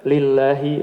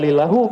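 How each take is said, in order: First: The word ends with an 'ee' vowel. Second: The word ends with an 'oo' vowel. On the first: The speaker calls it right. "Tapi apa? Lillahi begitu" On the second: The speaker calls it wrong. "nggak bisa dibaca lillahu"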